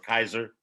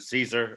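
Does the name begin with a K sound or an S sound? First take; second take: K sound; S sound. First: The name begins with a K sound. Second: The name begins with an S sound. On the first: This is the northern Germanic form. "Kaiser was the Germanic pronunciation" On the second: This is the southern Latin and Italian form. "the Latin pronunciation and Italian phrase, you had Caesar"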